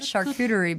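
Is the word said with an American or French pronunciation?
American. The word is said with an American pronunciation. "I call it charcuterie because I'm an American"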